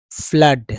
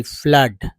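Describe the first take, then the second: First: फ्लड again, loud and falling, short a; word repeated as a demo. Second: फ्लड said loud and clearly, like "flud"; फ्लड with a short a sound, said loud for the class; word said as a demo. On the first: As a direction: say फ्लड once more, clearly for the class. (फ्लड दोबारा, ज़ोर से और साफ़) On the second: (फ्लड को ज़ोर से, छोटे अ के साथ बोलिए) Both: Shown as a demonstration. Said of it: "जैसे फ्लड पढ़ते".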